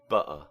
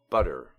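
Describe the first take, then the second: First: The middle T is left out entirely. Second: The middle T sounds like a D. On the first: "a Cockney accent... where you want to leave the T out altogether" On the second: "in the middle of American words, uh, the T is pronounced as a D"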